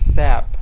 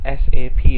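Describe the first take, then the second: First: The name is said as a single word. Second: The name is spelled out as separate letters. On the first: The speaker calls it wrong. "not S A P. Okay, that's very unprofessional and very wrong" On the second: The speaker calls it right. "should be pronounced as S A P"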